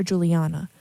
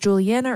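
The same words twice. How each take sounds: First: Juliana with a broad "ah"; second pronunciation variant. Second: Juliana with the flat "a" of "Anna"; first pronunciation variant. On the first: Someone offering the other option for a name, "Juliana" with "ah". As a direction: say "Juliana" as "Julie-AH-na". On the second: Someone asking about a girl's name, "Juliana" rhyming with "Anna". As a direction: say "Juliana" as "Julie-ANN-a". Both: Retold or imitated. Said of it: "Is it Juliana or Juliana?".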